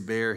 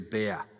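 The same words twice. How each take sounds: First: The final R is clearly pronounced. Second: The final R is dropped, Maine style.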